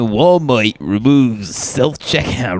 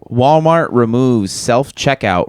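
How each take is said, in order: First: It is said in a put-on New York accent. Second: It is said in the speaker's ordinary accent.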